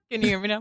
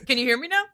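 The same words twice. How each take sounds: First: Said in the usual way. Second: Quick laughing question. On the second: Real, not acted. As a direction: laugh through the check.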